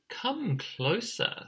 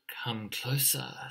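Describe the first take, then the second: First: Slow, higher, singsong invitation; luring fox. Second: Softer, whispered invitation; sly snake. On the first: Fox lures the emu chick closer, slow coaxing voice. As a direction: coax like a sly fox, drawing it out. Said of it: "said Fox". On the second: Snake lures the emu chick closer, soft whisper. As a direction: lure them in with a hushed whisper. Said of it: "said Snake". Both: Acted.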